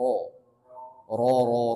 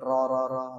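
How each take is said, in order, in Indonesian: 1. Suku kata r terdengar tebal dan berat. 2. Suku kata r terdengar tipis dan ringan. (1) "tapi ro ro ro" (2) "jangan ro ro ro ringan gitu"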